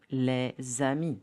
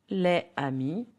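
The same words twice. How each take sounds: First: LES AMIS linked with Z, le-zami; Z sound between "les" and "amis"; liaison. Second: LES AMIS apart, silent S; "les amis" unlinked, no Z; no liaison. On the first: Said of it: "will becomes a Z". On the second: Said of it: "will be les amis". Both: Shown as a demonstration.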